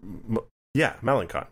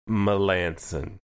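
First: The name is said the way it looks spelled. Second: The name is said differently from its spelling. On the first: The speaker calls it wrong. "that is how it looks like it's spelled. ... That's not how you say it" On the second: The speaker calls it right. "It's Melanson"

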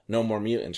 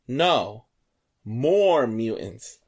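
First: It is said without a pause after no. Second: There is a pause after no.

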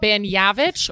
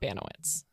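First: The name has a Polish pronunciation. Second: The name has an anglicized pronunciation. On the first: The speaker calls it right. "It's Baniewicz" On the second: The speaker calls it wrong. "but it's not Baniewicz"

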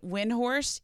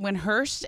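First: It is said with a 'd' and 'horst'. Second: It is said without 'd', ending 'hurst'. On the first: The speaker calls it wrong. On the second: The speaker calls it right.

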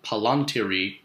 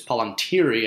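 First: The stress is on another syllable. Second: The stress is on the second-to-last syllable. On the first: The speaker calls it wrong. "and not palantiri, which just sounds so weird" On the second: The speaker calls it right. "the reason it's palantiri"

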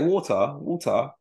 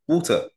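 First: It is said as an exaggerated mocking accent. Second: It is said in the speaker's ordinary accent. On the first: Someone else was mocking the accent. "He was like water" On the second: This is how the speaker really says it. "say water"

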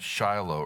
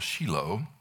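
First: The name is said the ordinary English way. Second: The name is said the way Israelis say it.

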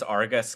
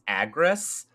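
First: The r sound comes before the g. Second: The r sound comes after the g. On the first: The speaker calls it wrong. "everyone says Argus" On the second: The speaker calls it right. "it's Agrus"

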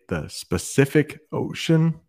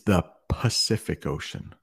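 First: The word begins with an S sound. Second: The word begins with a P sound. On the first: The speaker calls it wrong. "There are some native English speakers who like to say" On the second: The speaker calls it right. "It's the Pacific Ocean. It starts with a P"

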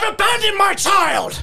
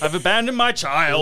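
First: It is shouted very loudly. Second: It is said at a normal, quieter volume.

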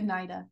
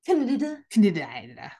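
First: The initial C is silent, starting with N. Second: The initial C is pronounced before the N. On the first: "I feel like Nida" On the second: "Can't tell if I want to pronounce the C or the N"

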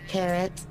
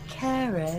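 First: The word is said in a plain American way. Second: The word is said with a slightly British sound.

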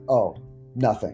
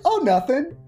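First: It sounds cold and hostile. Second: It sounds friendly and casual.

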